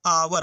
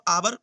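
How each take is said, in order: First: आवर punched louder as the answer; emphatic answer. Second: Said in the usual way. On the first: Shown as a demonstration. Teacher answering his own question to pupils, stressing आवर. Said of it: "क्या पढ़ेंगे?". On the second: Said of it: "इसको हम आवर पढ़ेंगे".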